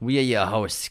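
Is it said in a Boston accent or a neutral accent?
Boston. Said in a heavy Boston accent.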